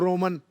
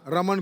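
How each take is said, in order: First: The first vowel is rounded to an 'o'. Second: The first vowel is a plain open 'a'.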